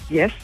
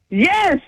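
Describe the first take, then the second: First: It is said quietly and flatly. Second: It is said loudly and proudly.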